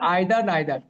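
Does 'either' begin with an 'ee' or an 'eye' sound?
eye. Both words have an 'eye' vowel. This is the British way of saying it. "ব্রিটিশরা বলে আইদার নাইদার"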